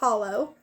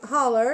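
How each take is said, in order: First: It is said in a standard accent. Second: It is said in an Appalachian mountain accent.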